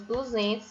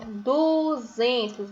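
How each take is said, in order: First: Said in the usual way. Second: "Duzentos" very slow, "duuu-zen-tos"; syllable by syllable. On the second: Shown as a demonstration. Teacher sounding out a number for pupils, "Duzentos" in slow syllables. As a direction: draw out the du of "Duzentos", then each beat. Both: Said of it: "inicia com a sílaba du".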